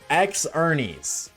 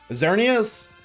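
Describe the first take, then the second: First: It starts with the letter name 'ex'. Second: It starts with a 'z' sound. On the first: The speaker calls it wrong. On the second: The speaker calls it right.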